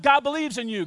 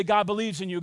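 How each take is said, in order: First: Higher, firmly declared; with conviction. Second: Said in the usual way. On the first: Shown as a demonstration. Pastor showing the church how to say it, with conviction. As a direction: proclaim it so they feel it. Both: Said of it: "say it with some conviction".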